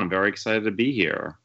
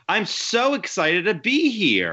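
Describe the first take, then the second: First: It sounds flat and unexcited. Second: It sounds lively and enthusiastic.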